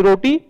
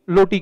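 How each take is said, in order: First: Said in the usual way. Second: "लोटी" with an L opening in place of R; mispronounced roti. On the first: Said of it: "के रूप में उच्चा-, उच्चारित करते हैं". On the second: Shown as a demonstration. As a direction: say "लोटी", swapping the first R for L. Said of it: "लोटी के रूप में लोग जानते". ("लोटी": र की जगह ल वाला उच्चारण)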